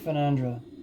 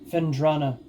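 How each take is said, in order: First: The name ends with the syllables nan-dra. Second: The name ends with the syllables dra-na. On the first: The speaker calls it wrong. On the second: The speaker calls it right.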